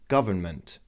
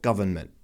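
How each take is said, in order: First: The T in the middle is released audibly. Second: The T in the middle is held, not released. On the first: "You can release or not release the T" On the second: "and you just don't release the T"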